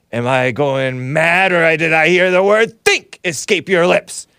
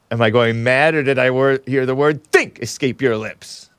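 First: Slow start, then high, loud outrage; a scoffing Sicilian mastermind, incredulous; Sicilian villain voice. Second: A hint of the Sicilian villain; lightly quoting the incredulous Sicilian. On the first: Retold or imitated. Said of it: "said that Sicilian". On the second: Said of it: "The clip of me saying".

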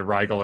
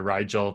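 First: Rigel with a hard g, RYE-gull. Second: Rigel with a soft g, RYE-jel. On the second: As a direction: say the g in "Rigel" as in "gel". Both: Shown as a demonstration. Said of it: "I may butcher the pronunciation here".

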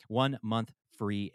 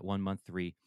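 First: "one month free" said slowly, each word weighted; slow emphatic repeat. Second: Said in the usual way. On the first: Real, not acted.

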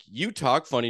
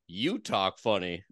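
First: Said in the usual way. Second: Slow, lower Texas drawl imitating the lady; Texas lady accent. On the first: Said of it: "And I was like". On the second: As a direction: mimic the Texan woman's slow drawl right back at him. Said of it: "And she's like".

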